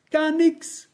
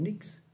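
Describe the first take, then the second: First: "gar nix" pitched much higher and pushed out; emphatic gar nix. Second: Almost breathed, very soft; quiet nix. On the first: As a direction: hit "gar nix" high as the climax. Steigernde Wiederholung von nix. ("gar nix" hoch und nachdrücklich betont) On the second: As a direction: set it down barely audible. Leise gehauchtes, steigerndes Nix. (kaum hörbar gehaucht) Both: Acted.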